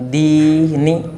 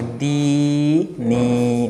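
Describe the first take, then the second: First: The two vowels are held for unequal lengths. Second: Both vowels are drawn out to equal length. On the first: The speaker calls it wrong. "बहुत से लफ्ज़ दी नी इस तरह से पढ़ते हैं, तो ये इस तरह से नहीं पढ़ा जाएगा" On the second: The speaker calls it right. "तो दोनों को हम बराबर खींचेंगे"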